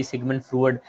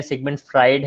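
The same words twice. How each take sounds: First: फ्रूड said with a long oo, the mistaken way; mock the student's फ्रूड, rhyming with food; wrong pronunciation. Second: फ्राइड said with an "eye" sound, like Fried; correct pronunciation. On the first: Teacher imitating a student's wrong फ्रूड in a viva. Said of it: "इसको फ्रूड नहीं पढ़ना आपने बिल्कुल भी". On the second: Teacher correcting the class on फ्राइड, clearly spoken. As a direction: give फ्राइड its clear "ai" vowel. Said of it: "इसको फ्राइड जो है वो करते हैं, प्रोनाउंस करते हैं". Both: Shown as a demonstration.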